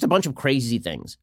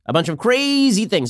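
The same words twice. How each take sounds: First: Said in the usual way. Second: "crazy" stretched out long; stress on crazy. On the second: Real, not acted. Repeats phrase with stretched crazy.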